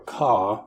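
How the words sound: The final R sound is dropped.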